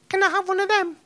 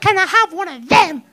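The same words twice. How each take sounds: First: It is asked in an innocent, sweet tone. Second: It is asked in an angry, stamping tantrum tone.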